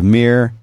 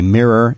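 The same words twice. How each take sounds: First: It is said in a Philadelphia accent. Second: It is said in a general American accent. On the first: "instead of" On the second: "I say"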